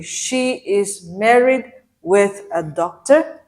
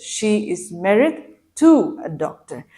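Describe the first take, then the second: First: "She is married with a doctor" slowly, rising at the end; slow, deliberate "married with a doctor", left hanging on a rise; incorrect example. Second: "to" stressed, falling to the end of "doctor"; correct example. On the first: Teacher reads learners a wrong example, slow and rising at the end. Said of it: "that is incorrect". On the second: Teacher gives learners the correct sentence, stressing "to". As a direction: set "to" apart firmly, then close on a fall. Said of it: "The correct sentence is". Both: Shown as a demonstration.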